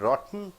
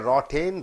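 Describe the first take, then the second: First: The T is held, going straight into N. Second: The T is released before the N. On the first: The speaker calls it right. "You are jumping straight from T to N" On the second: The speaker calls it wrong. "you don't say rotten"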